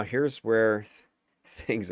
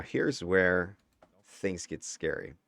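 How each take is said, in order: First: Breaking into a laugh mid-word. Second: Said in the usual way. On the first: Real, not acted. Commentator losing it over the gameplay, laughing. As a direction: try to say it and crack up laughing. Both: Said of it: "'cause I'm, like, laughing".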